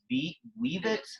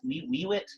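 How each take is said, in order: First: The word begins with a hard V sound. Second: The word begins with a W sound. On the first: The speaker calls it right. "I would like need a little bit of the V sound" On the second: The speaker calls it wrong. "It just sounds too weird"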